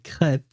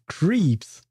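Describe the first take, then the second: First: It has a French 'eh' vowel, like 'krep'. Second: It has a long 'ee' vowel, like 'creeps'. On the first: The speaker calls it right. "the French word crêpe" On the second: The speaker calls it wrong. "becomes creeps in English"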